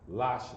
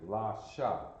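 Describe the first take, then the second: First: It is joined into one syllable. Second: It is split into two separate syllables. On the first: The letters are connected. The speaker calls it wrong. "If this were connected, this would be lash" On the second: The letters are not connected. The speaker calls it right. "Take the connection away, la, sha"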